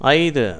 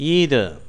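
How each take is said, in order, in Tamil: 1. முதல் உயிரெழுத்து 'eye' போல ஒலிக்கிறது. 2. முதல் உயிரெழுத்து 'ee' போல ஒலிக்கிறது. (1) "ஆங்கிலேயர்கள் இதே வார்த்தையை ஐதர் என்று உச்சரிக்கிறார்கள்" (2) "அமெரிக்கர்கள் இந்த வார்த்தையை ஈதர் என்று உச்சரிக்கிறார்கள்"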